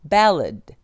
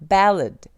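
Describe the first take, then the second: Both takes have the same delivery.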